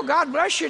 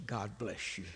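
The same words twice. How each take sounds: First: High, loud, frustrated echo of the blessing; exasperated quoting. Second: Low, very soft, unruffled blessing; calm wife. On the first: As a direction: throw the phrase back in exasperation. Throwing wife's phrase back. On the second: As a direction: imitate a wife who stays perfectly calm. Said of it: "She just is the calmest person". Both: Retold or imitated.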